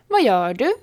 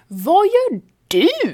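First: It is said plainly with no special emphasis. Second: It is said with a curious, intrigued emphasis. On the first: The speaker simply wonders what the other is doing. "Betyder rakt upp och ner. Jag undrar vad du gör" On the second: What the other is doing looks interesting or strange. "Betyder det du gör ser intressant, annorlunda eller konstigt ut"

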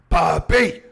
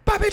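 First: The word is said slowly with clear syllables. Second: The word is said quickly and loosely. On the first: The speaker calls it right. "Like that?" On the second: The speaker calls it wrong. "I'm trying to see how quick I can do it"

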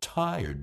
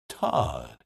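First: The vowel is a gliding long I. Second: The vowel is a flat ah, Southern-style.

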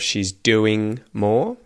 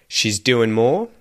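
First: The ending is a full ing sound. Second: The ending is reduced to an n sound. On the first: "instead of" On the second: "an N sound instead of an ing sound"

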